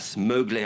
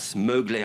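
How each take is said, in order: First: The name is said with an American accent. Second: The name is said with an American accent.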